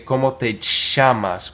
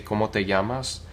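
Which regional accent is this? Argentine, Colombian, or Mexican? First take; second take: Argentine; Mexican. First: It is said in an Argentine Spanish accent. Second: It is said in a Mexican Spanish accent. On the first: "In Argentina, they might say" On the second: "Like if you're from Mexico or parts of the U S or possibly Spain"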